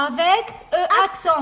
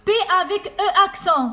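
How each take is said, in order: First: "Avec E accent" stretched very slowly, loud and high; slow each syllable right down for the child; mother repeating "Avec E accent" extra slowly to her son. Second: "E" punched high and loud, falling; mother stressing "E" in "P avec E accent" for her son; teacher stress. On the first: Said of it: "mother repeats it slower". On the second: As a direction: lean on "E" so the child hears it. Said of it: "mother models the syllable". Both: Shown as a demonstration.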